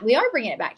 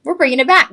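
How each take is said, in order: First: "are" leaned on firmly, falling; stress on are. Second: Higher and louder, back rising; excited exclaim. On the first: Shown as a demonstration. Host correcting herself to viewers, firm stress on "are". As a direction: land hard on "are", rest steady. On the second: Retold or imitated. Host recalling her thought to viewers, bright excited exclaim. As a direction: toss it out like a happy announcement. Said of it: "I thought".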